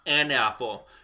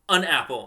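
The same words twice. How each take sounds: First: The word an has its full vowel. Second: The word an is reduced to un. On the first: The speaker calls it wrong. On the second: The speaker calls it right. "an becomes un"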